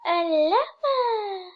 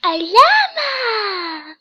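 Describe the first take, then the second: First: Excited. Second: Loud, slow, drawn-out cry of joy; overjoyed drawn-out shout; excited. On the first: Excited reaction to a quiz result. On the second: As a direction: yell it out with delight. Excited reaction to a quiz result, again. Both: Real, not acted.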